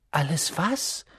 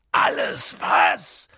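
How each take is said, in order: First: Said in the usual way. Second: Langsam und tief gedonnert; donnernd. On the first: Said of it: "fragte Harry". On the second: A narrator's reading. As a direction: donnere die Frage wütend. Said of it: "donnerte Hagrid". (Hagrid donnert Harry an, donnernd)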